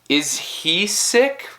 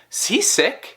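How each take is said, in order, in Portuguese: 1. Cada palavra é pronunciada separadamente e por completo. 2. As duas primeiras palavras são ligadas. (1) "em vez de falar tipo is he sick" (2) "pode sair tipo is he sick?"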